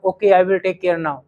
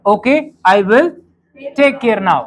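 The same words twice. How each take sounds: First: Calm, slow and polite "Okay, I will take care now"; a well-mannered child agreeing gently; polite reply. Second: Said in the usual way. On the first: Shown as a demonstration. Told to avoid Hindi, a polite student agrees calmly. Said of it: "अब सभ्य बच्चा तो यही कहेगा". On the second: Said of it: "ठीक है".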